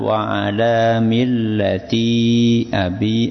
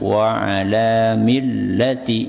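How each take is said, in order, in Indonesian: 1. Vokal terakhir millati dibaca panjang. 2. Vokal terakhir millati dibaca pendek. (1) "Bukan wa'ala millati abi, bukan" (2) "wa'ala millati itu pendek nggih"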